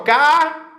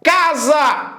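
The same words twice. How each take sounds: First: "Casa" split in two, "ca", pause, "za"; separado em sílabas. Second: Said in the usual way. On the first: Shown as a demonstration. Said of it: "a gente separa a casa assim". ("Casa" sílaba por sílaba, "ca... sa") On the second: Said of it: "Diferente disso aqui".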